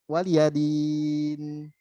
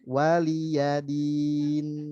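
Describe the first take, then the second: First: The vowel after 'l' is clipped short. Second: The vowel after 'l' is given full length. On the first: The speaker calls it wrong. "Li-nya jadi kepotong cuma dua per tiga harokat" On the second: The speaker calls it right. "Harusnya kan satu harokat"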